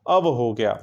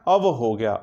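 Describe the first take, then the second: No difference in how they are said.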